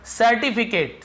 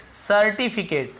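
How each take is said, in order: First: Headword called out. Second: Slow syllable by syllable. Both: Shown as a demonstration. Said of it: "certificate यानी प्रमाण पत्र".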